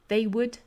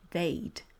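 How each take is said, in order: First: It is said as two separate syllables. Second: It is merged into one syllable.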